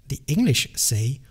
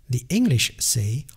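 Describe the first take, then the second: Both takes have the same delivery.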